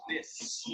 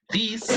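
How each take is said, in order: First: This with a short relaxed i, breathed almost silent; short lax i, whispered. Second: This said as thees with a tight ee, pitched high; tense ee vowel. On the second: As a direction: lean into thees. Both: Shown as a demonstration. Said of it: "listen to me".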